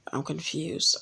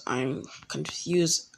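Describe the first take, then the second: First: Said in the usual way. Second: Slow, soft repeat. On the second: Retold or imitated. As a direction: drag the words out. Zabuza repeats, drawn out.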